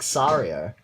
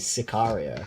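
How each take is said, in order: First: The name is said without the 'ka' syllable. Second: The name is said with the 'ka' syllable. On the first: It imitates the other person's mispronunciation. The speaker calls it wrong. "you even pronounced it as like Sario" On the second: It is the intended pronunciation of the title. The speaker calls it right. "You didn't say Sicario"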